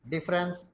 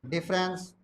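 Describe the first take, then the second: Both takes have the same delivery.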